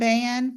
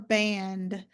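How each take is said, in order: First: The final consonant cluster is reduced. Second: The final consonant cluster is fully pronounced.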